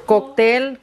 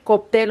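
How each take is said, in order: First: "Cóctel" with a clear k, koktel; crisp k in the middle of "Cóctel". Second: "cóctel" said koptel, p instead of k. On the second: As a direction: swap the k for a p in "cóctel". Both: Shown as a demonstration. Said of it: "Yo he oído unas que dicen".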